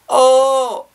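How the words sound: The sound is overly bright and choked. The speaker calls it wrong. "overly bright and it almost feels kind of like choked"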